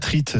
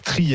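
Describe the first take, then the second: First: The final t is sounded. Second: The final t is silent. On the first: The speaker calls it wrong. "et pas trite" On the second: The speaker calls it right. "on prononce tri"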